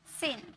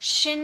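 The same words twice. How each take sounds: First: सिन with a clean s at the start; correct s sound. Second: शिन said with sh at the start; wrong sh sound. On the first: Teacher models the right सिन with s. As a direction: say सिन with s, softly. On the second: Teacher demonstrates the wrong शिन with sh. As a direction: show the mistake शिन with sh. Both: Shown as a demonstration. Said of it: "इसे हम शिन नहीं बोलेंगे".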